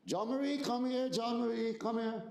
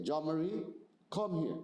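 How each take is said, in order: First: Put-on high, sing-song calling a child; light, friendly call. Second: Firm, serious summons that means trouble; stern call. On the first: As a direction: call her over sweetly, no trouble. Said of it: "the tone of my voice". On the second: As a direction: call her so she knows something's wrong. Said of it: "the tone of my voice ... tells her something's wrong". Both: Shown as a demonstration.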